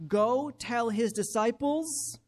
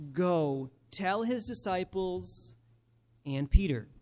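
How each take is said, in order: First: "Go tell his disciples" read slowly and deliberately; "disciples" given weight; slow emphatic reread. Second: "and Peter" as the key words; slow stress on Peter. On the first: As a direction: lean on each word. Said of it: "Do you see those seven". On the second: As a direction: lean on "and Peter" after a pause. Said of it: "verse seven, pay attention". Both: Shown as a demonstration.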